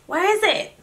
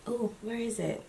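First: Puzzled search. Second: Said in the usual way. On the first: Real, not acted. Searching again, louder.

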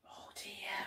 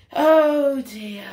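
First: Whispered, barely there; hushed dismay. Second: Big, drawn-out storyteller's concern; loud dismay. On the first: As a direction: murmur it under your breath in concern. Narrator reacts to upset. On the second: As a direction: announce the trouble with full voice. Narrator reacts louder. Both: Pretend.

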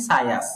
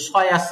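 First: সায়াস with a thin s for sad; wrong light sad. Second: সয়াস with a heavy sad-like s; wrong heavy sin. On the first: Teacher imitates the opposite error, light sad. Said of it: "সদকে সিন বানিয়ে ফেলি". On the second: Teacher imitates learners' error, heavy s. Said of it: "সিনকেও সদ বানাই ফেলি". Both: Shown as a demonstration.

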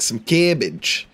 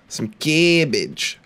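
First: Slow savoring. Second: Drawn out. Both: Shown as a demonstration.

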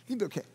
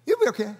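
First: Much softer, gentle reassurance; almost hush it, comforting; soft, nice reassurance. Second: Kindly reassuring, normal level; nice, gentle reassurance. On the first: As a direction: organizers soothing a nervous runner, softly. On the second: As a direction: tell them they'll be fine, sweetly. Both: Retold or imitated. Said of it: "they said it in such a nice way".

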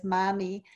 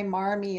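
First: "mommy" with the R dropped, Boston style; New England R-less "mommy"; Boston accent. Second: Said in the usual way. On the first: Shown as a demonstration. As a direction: say "mommy" as a Massachusetts local says Marmee, broad open A and no R. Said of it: "a Massachusetts accent". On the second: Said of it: "demonstrate for you".

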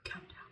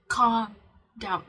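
First: Much softer, almost breathed calm down; hushed. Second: Calm down said much louder, firm and declared; loud and clear. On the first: Advising viewers on self-talk, very softly. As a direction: murmur it gently to yourself. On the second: Telling viewers to profess it, loud and firm. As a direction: proclaim it out loud to yourself. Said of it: "Profess it out loud". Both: Shown as a demonstration.

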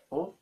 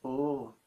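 First: "o" cut short; short vowel. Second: "oo" held out; long vowel. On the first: Teacher naming the short vowel for learners, short vowel. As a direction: keep "o" to a quick beat. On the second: Teacher naming the long vowel for learners, long vowel. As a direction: hold the "oo" longer. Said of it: "and long". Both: Shown as a demonstration.

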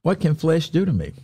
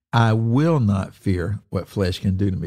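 First: "What can flesh do to me" asked on a higher pitch; read as question. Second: "I will not fear" stated firmly, falling at the end; declarative statement. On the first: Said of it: "It can be read as a question". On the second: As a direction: read "what flesh can do to me" as a declaration, not a question. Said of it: "It's a very declarative statement". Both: Shown as a demonstration.

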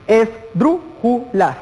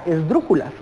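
First: "Esdrújulas" very slowly as es-drú-ju-las; four separate beats in "Esdrújulas", punching "drú"; syllable by syllable. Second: Said in the usual way. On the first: Shown as a demonstration. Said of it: "Las es el último, la última sílaba". ("Esdrújulas" sílaba por sílaba, muy lento: es-drú-ju-las) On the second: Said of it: "podemos mencionar inclusive la misma palabra".

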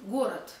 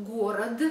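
First: Город as "GO-rat", final t; devoiced ending. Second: Город with released final d, "go-rod-duh"; spelled voiced ending. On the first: Teacher showing how it is read, город as "gorat". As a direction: end город on a crisp t. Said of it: "but we read". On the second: Teacher showing spelling, город ending in voiced d. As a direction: sound out the last d of город. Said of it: "we spell". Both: Shown as a demonstration.

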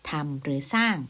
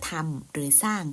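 The two takes are said the same way.

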